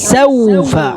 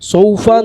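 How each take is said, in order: First: The first s is said with open lips. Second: The first s is said with rounded lips. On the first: The speaker calls it right. "വായ തുറന്ന് തന്നെ ഉച്ചരിക്കുക" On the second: The speaker calls it wrong. "സീനിന് ചിലർ അങ്ങനെ ആക്കിപ്പോവും"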